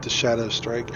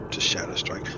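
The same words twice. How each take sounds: First: Said in the usual way. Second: Whisper. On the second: Real, not acted. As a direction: repeat it under your breath, unvoiced and softer. Repeats phrase, then whispers it.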